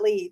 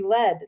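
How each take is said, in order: First: The vowel is long, like in seed. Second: The vowel is short, like in bed. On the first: It is the town's local name. The speaker calls it wrong. "not lead" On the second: It names the metal used for bullets. The speaker calls it right. "you think guns and robbers and cowboys and Indians, it should be lead"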